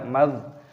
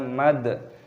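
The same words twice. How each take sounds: First: The final consonant is held without a bounce. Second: The final consonant is released with a bounce. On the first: The speaker calls it right. "jadi jangan dipantulkan, dibaca mad" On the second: The speaker calls it wrong. "jangan kita baca mad"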